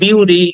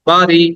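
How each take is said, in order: First: The first vowel sounds like 'yoo'. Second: The first vowel sounds like 'ah'. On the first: "অনেকে বলি বিউরি" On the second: "অনেকে বলি বাড়ি"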